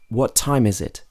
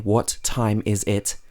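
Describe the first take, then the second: First: The words join with the shared sound said once. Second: The words are said separately, each sound clear. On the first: The speaker calls it right. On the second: The speaker calls it wrong.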